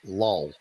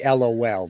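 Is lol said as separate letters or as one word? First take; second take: word; letters. First: It is said as one single word. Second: It is spelled out as three separate letters. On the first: "they actually pronounce lol" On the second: "they don't say LOL"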